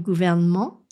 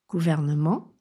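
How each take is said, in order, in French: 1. Le son « e » du milieu est supprimé. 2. Le son « e » du milieu est prononcé.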